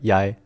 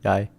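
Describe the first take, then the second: Both takes have the same delivery.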